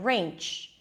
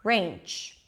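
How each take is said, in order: The two takes are said the same way.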